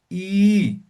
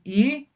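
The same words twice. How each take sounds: First: "I" held long, as one drawn-out eee; long vowel. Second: Said in the usual way. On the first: Shown as a demonstration. Teacher showing diéresis, "I" lengthened. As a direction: stretch "I" to double length, falling. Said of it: "Simplemente van a alargar". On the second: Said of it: "en vez de decir I".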